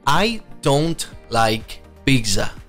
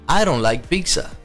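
First: The d in don't is a clear d. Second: The d in don't sounds like an r.

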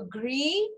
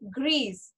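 First: The word ends without an S sound. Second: The word ends with an audible S sound. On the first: The color describes a masculine noun. "Gray will be pronounced as gray" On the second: The color describes a feminine noun. "I am pronouncing S here"

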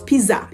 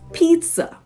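First: The middle consonant is a plain z sound. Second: The middle consonant is a ts sound. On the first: The speaker calls it wrong. "it is not pizza" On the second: The speaker calls it right. "It actually is pizza"

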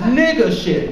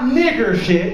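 First: The first word ends with an 'a' sound. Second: The first word ends with an 'er' sound. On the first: The speaker calls it right. "You put the A on the end of that motherfucker" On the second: The speaker calls it wrong. "It's not"

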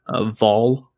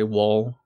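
First: The name begins with a V sound. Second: The name begins with a W sound. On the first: This is the Swedish pronunciation. "in Swedish you actually pronounce it as a V" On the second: This is how Americans usually say it. "most Americans would say Wahl"

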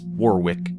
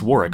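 First: The name is said as it is spelled. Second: The name is said in a shortened form. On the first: This is how the spelling suggests it sounds. "it looks like it's Warwick" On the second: This is believed to be the real pronunciation. "I think it's Warwick"

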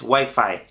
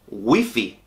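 First: The word is said with English pronunciation. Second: The word is said with Spanish pronunciation. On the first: The speaker calls it wrong. "No es Wi-Fi" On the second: The speaker calls it right. "esta palabra es Wi-Fi"

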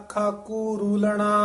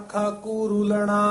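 The two takes are said the same way.

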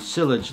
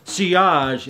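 First: The word is given an anglicized pronunciation. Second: The word is given a French-style pronunciation. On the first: "sometimes people pronounce it sillage like I used to 2 years ago" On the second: "It's a French word"

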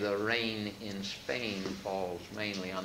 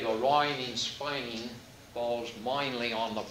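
First: It is said in a standard accent. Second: It is said in a Cockney accent. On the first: Nobody can tell the speaker is working class. The speaker calls it right. "say it the right way" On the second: The speaker is working class. The speaker calls it wrong. "she's got a Cockney accent"

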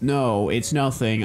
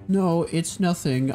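First: The line is read in a put-on character voice. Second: The line is read in a casual voice. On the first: The speaker calls it right. "Here's my new voice for Makoto" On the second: The speaker calls it wrong. "I need to do a better voice for her"

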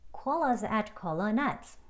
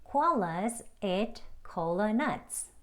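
First: The sentence is spoken at a faster, conversational pace. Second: The sentence is spoken at a slower pace.

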